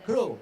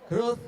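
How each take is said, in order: First: The word ends without any th sound. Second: The word ends with a clear th sound. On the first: The speaker calls it wrong. "Saudara akan tersesat kepada grow. Itu adalah salah" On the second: The speaker calls it right. "lidahnya itu harus menyentuh gigi atas"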